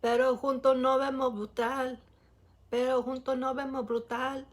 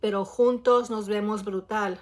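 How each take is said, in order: First: "Pero juntos nos vemos brutal" with the endings eaten, "junto", "nob"; truncated Puerto Rican delivery; clipped Puerto Rican style. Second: "Pero juntos nos vemos brutal" with every syllable said clearly; careful textbook Spanish; full standard pronunciation. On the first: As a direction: swallow the final s sounds. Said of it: "the way that they just, like, truncate the words". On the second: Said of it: "you basically would say". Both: Shown as a demonstration.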